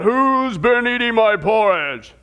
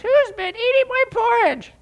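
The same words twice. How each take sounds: First: It is said in a deep, roaring voice. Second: It is said in a high, squeaky voice.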